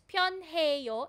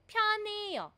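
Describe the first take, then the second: First: The H sound is clearly pronounced. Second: The H sound is dropped entirely. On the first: "if you pronounce it as pyonheyo, it's okay" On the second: "so nagiging silent po yung hiyut"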